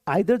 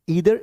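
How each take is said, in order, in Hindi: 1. यह शब्द 'eye' ध्वनि से शुरू होता है। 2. यह शब्द 'ee' ध्वनि से शुरू होता है। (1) "वो आइदर जो है ना वो एक न्यूट्रल एक्सेंट, मतलब एक हमारे इंडियन एक्सेंट्स में आता है" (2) "ईदर is the right one"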